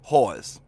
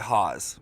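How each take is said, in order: First: The r sound is clearly pronounced. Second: The r sound is dropped.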